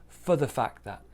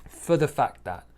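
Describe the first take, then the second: No difference in how they are said.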